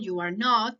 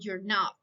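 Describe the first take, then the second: First: All three words are said fully and separately. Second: The first two words are merged into one syllable. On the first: "Negative form" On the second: "Contracted, negative form"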